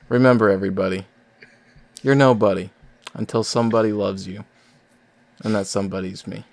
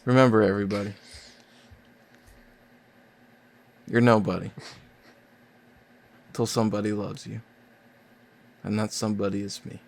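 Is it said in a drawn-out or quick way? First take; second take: quick; drawn-out. First: It is said quickly, getting to the point. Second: It is said slowly and drawn out.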